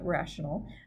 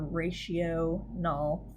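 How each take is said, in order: First: It begins with a short 'rash' sound. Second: It begins like 'ratio' and ends in 'null'. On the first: The speaker calls it right. "It's a rational" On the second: The speaker calls it wrong. "That's not how you pronounce that at all"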